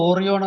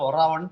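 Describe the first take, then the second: First: The second syllable sounds like 'ree'. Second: The second syllable sounds like 'rye'. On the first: This is how the name is written. "എഴുതുന്നത് ഓറിയോൺ എന്നാണ്" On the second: This is how the name is actually pronounced. "ഒറാവൺ എന്നാണ് ഉച്ചരിക്കുന്നത്"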